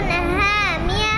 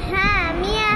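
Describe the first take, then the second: The two takes are said the same way.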